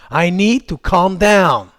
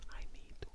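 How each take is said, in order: First: Drawn-out, clearly voiced self-instruction; slow, deliberate phrase. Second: Very faint whispered echo. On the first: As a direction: say it slowly and firmly. English calming phrase, full-voiced take. (phrase lente, posée et appuyée) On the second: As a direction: whisper it under your breath. Same phrase repeated whispered. (chuchoté, à peine audible) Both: Shown as a demonstration.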